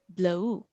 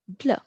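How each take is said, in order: First: The final U sound is clearly pronounced. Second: The final U sound is left silent. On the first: The speaker calls it wrong. "if the U wasn't silent, it would say bleu, because U is U is pronounced as U" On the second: The speaker calls it right. "But since the final consonants are silent, it goes bleu"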